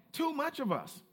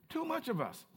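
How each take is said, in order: First: "too" hit first and hardest; stress on too. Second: "much" leaned on, falling; stress on much. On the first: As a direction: punch "too" in "Too much of us", then fall away. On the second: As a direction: press the word "much" in "Too much of us". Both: Shown as a demonstration.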